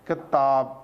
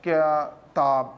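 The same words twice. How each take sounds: First: کتاب said in one go, lower-pitched; joined-up word reading. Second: کتاب broken in two, slow, with a gap before تاب; halting word reading. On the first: Teacher showing parents a child's reading, joined up. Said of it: "ایک روحانی سے پڑھ رہا ہے". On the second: Teacher mimicking a child's reading for parents, halting and slow. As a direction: read کتاب haltingly in low, drawn-out pieces. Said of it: "یہ کیا اس طرح پڑھ رہا ہے". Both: Shown as a demonstration.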